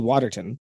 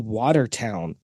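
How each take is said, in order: First: The last syllable is reduced to 'tun'. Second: The last syllable is a full 'town'. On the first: This is how Canadians say it. "so we'd probably say Waterton" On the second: This is how Americans say it. "You guys say Watertown"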